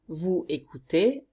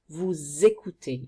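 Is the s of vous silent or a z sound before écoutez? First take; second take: silent; z sound. First: The s of vous is silent, not linked. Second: The s of vous links as a z sound. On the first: The speaker calls it wrong. "you don't say" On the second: The speaker calls it right. "You have to link this S and it makes a sound Z"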